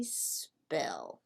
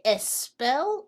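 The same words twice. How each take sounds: First: "spell" starting straight on a long S; one syllable "spell", no vowel before the S; clean initial S. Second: "espel" with an extra "eh" before the S; added E before S. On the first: Teacher offers learners the right choice, clean initial S. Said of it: "We say spell". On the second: Teacher offers learners the wrong choice, added E before S. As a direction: say "espel" as two syllables, es-PELL. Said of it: "Do we say espel or do we say spell?". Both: Shown as a demonstration.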